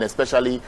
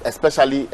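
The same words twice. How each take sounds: First: Said in the usual way. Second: "especially" said with deliberate weight; emphasis on especially. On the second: Real, not acted. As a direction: lean on the word "especially". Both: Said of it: "let me emphasize on the word especially".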